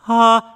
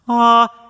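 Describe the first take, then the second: First: The vowel starts with a breathy h-like puff. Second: The vowel starts smoothly, with no catch or breath. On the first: The speaker calls it wrong. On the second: The speaker calls it right. "clean and balanced"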